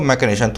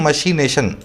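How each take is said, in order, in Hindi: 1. बीच का व्यंजन 'k' जैसा सुनाई देता है। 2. बीच का व्यंजन 'sh' जैसा सुनाई देता है। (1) "लेकिन बोलते हैं इसको मैकेनेशन" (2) "ये लिखा जाता है मशीनेशन"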